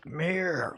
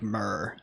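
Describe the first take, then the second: First: The vowel sounds like the one in 'meer'. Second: The vowel sounds like the one in 'fur'. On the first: The speaker calls it right. "it's Mir, like the fucking space station" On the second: The speaker calls it wrong. "you don't say it like Mur"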